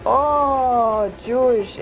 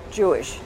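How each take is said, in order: First: High, louder, drawn-out "oh" of joyful discovery; delighted recognition. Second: Said in the usual way. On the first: Retold or imitated. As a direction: act out his happy surprise. Stranger's delighted recognition, then hug.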